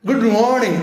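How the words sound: It is said in an exaggerated put-on foreign accent. The speaker calls it wrong. "ഇങ്ങനെ ഇട്ടുകൊണ്ട് പറ"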